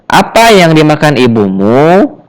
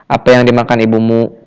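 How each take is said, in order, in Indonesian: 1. Pertanyaannya diucapkan dengan penekanan yang sedikit kuat. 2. Pertanyaannya diucapkan tanpa penekanan yang kuat itu. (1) "ada intonasi yang sedikit menekan" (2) "kurang ya, kurang kurang enak"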